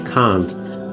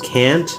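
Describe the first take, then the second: First: It is said with a British accent. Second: It is said with an American accent. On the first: "or if you like the British accent" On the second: "If you like the American accent"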